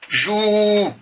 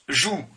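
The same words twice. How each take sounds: First: The vowel is long. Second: The vowel is short. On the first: "je rajoute la lettre d'allongement, ça se prononce jou" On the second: "si je mets jou, comme ça, elle se prononce jou"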